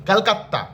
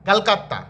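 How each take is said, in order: Both takes have the same delivery.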